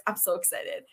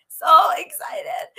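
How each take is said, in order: First: Quiet, contained excitement; giddy aside. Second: High, loud, drawn-out squeal of excitement; giddy excitement. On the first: Host confessing excitement before bringing on a guest, softly giddy. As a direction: say it softly, holding the giddiness in. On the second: Host bursting with excitement about her guest, giddy. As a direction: let the giddiness burst out, stretching the words high. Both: Real, not acted. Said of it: "go back to my giddiness".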